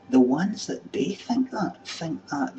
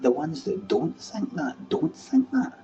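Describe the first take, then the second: First: Slow, higher stress on "think that"; emphatic contrast. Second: Slow, then very high on "don't think that"; emphatic contrast. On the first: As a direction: lean slowly on "think that", pitched up. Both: Real, not acted. Contrasts those who do and don't.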